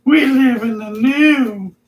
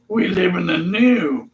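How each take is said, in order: First: High, loud, slow put-on voice. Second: Higher put-on voice. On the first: Imagined believer proclaims the new, high and loud. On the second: Imagined believer repeats his line, high and smug. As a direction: say it smugly, higher. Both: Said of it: "he's gonna say".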